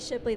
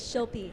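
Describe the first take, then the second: First: The p sound comes before the l sound. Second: The l sound comes before the p sound. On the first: The speaker calls it wrong. "Don't say Shipley. That's not right" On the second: The speaker calls it right. "It's Shilpi"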